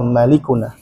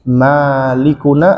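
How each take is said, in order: First: The vowel after the m is short. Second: The vowel after the m is held long. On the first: God is our owner. "atau pendek" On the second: God is our ruler. "Bisa dibaca mimnya panjang"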